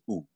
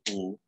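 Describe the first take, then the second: First: The vowel is cut very short. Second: The vowel is held for a normal length. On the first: "the shorter one" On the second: "the regular length"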